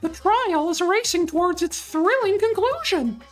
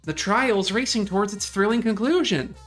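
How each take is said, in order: First: It is said in a put-on character voice. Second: It is said in the speaker's own normal voice. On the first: The speaker calls it right. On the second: The speaker calls it wrong.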